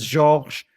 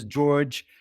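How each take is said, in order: First: Georges said as ZHORZH, French style; French Georges, one syllable; French pronunciation. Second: George said the English way, JORJ; English George, one syllable; English pronunciation. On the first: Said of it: "French people know me as". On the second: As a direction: say George with hard j sounds at both ends. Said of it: "English people know me as". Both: Shown as a demonstration.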